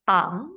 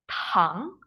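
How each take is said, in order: First: The first consonant has no puff of air. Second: The first consonant has a puff of air. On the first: The speaker calls it wrong. "Kalau D bahasa Mandarinnya bacanya adalah tang" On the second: The speaker calls it right. "Kalau T ada anginnya"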